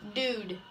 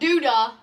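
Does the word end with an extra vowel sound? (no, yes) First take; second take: no; yes. First: The word ends cleanly without an extra vowel. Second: The word ends with an extra vowel sound. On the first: The speaker calls it right. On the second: The speaker calls it wrong.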